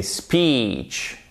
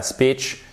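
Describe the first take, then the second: First: "speech" with a long, stretched ee, falling; correct long i. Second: "speech" said wrongly with a short i, like "spitch"; mispronounced short i. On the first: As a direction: draw out the ee in "speech". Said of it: "c'est un i long". (« speech » corrigé, avec un i long) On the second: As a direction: cut the ee in "speech" down to a short vowel. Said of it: "c'est pas speech". (« speech » mal prononcé, avec un i court) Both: Shown as a demonstration.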